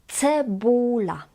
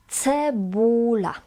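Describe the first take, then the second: No difference in how they are said.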